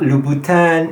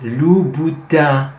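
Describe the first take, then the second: First: The final vowel is oral, without nasal sound. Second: The final vowel is nasal, like in vin. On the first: The speaker calls it wrong. "not Louboutin" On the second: The speaker calls it right. "it has that nasal sound with it"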